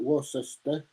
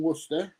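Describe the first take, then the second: First: Worcester spelled out in full, "Wor-ces-ter"; mock the American "Wor-ses-ter" reading of Worcester; American mispronunciation. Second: Said in the usual way. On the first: Teasing how Americans say Worcester, spelled-out "Wor-ses-ter". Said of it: "as the Americans call it". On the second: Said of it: "or as the Americans call it".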